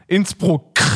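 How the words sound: The word ends with a harsh rasping chainsaw-like sound.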